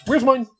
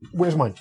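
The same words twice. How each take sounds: First: Playful high-pitched echo; high squeaky repeat. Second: Said in the usual way. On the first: Shown as a demonstration.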